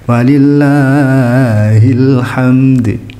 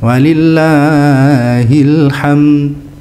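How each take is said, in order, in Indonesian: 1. D akhir dilepas dengan pantulan yang terdengar jelas. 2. Kata ini berakhir mendadak, tanpa d akhir yang memantul. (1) "Apa susahnya sih mengkol-kolahkan gitu kan?" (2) "nggak ada kol-kolahnya, jadi kayak kayak cuma ham berhenti di mim"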